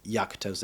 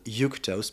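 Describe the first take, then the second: First: The name is pronounced the English way. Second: The name is pronounced the Italian way. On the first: "I think in English is Yaktos actually" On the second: "in Italy it would cer it would certainly be called Yuctos"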